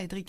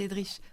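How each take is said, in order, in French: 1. Le nom se termine par un k dur. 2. Le nom se termine par un sh doux. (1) "on ne dit pas Edric" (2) "C'est Edrich"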